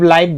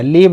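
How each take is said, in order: First: The vowel is an eye-like diphthong. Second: The vowel is a short ee-like sound. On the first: "इसका सटीक जो pronunciation है लाइव ही होगा" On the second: "बहुत जगह पे लीव पढ़ते हैं"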